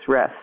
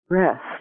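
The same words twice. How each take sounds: First: The word is said plainly without any energy. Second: The word is said with lively, felt energy. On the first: "without energy" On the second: "with energy"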